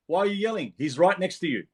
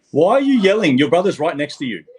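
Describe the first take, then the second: First: High-pitched telling-off without shouting; exasperated scolding. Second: Loud, high parental telling-off; scolding shout. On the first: Repeats telling-off with less force. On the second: Telling off yelling child off-session. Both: Real, not acted.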